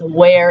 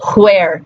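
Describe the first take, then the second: First: The word starts with a plain w sound. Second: The word starts with a breathy h before w. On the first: This is the modern pronunciation. "But now it's where" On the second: This is the old pronunciation. "it did used to be where"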